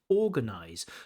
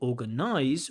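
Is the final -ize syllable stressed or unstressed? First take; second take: unstressed; stressed. First: The final -ize syllable is unstressed. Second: The final -ize syllable is stressed. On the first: The speaker calls it right. "we say realize, organize" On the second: The speaker calls it wrong. "instead of things like realize or organize"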